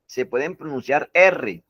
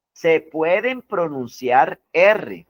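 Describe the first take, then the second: First: Said in the usual way. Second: Said slowly, every word of "Se pueden pronunciar R" weighted; slow emphatic rule. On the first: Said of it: "si quiere tomen apunte". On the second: Shown as a demonstration. Teacher to students, repeating the key rule slowly. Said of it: "Miren que aquí dice".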